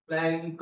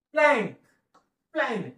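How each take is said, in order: First: plank read slowly with the weight dragged onto the final क; slow, end-stressed reading. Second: plank said fast in one smooth go; quick reading. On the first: Teacher showing students the wrong way to read. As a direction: drag out plank and hit the last sound. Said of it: "हळूच वाचायचं, शेवटच्या अक्षरावर जास्त जोर द्यायचा". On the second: Teacher showing students the right quick reading. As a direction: read plank quickly, no lean on the end. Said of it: "fast". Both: Shown as a demonstration.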